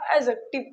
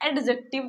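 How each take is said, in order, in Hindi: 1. 'd' की ध्वनि silent रहती है। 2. 'd' की ध्वनि साफ़ बोली जाती है। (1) "डी को हम नहीं पढ़ते, इसीलिए इसको एडजेक्टिव पढ़ते हैं।" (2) "इसको एडजेक्टिव नहीं बोलते हैं।"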